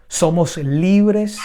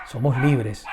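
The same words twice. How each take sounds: First: High, loud and slow; drawn-out triumphant proclamation of "libres"; preacher's ringing declaration; proclaimed. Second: Said in the usual way. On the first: Acted.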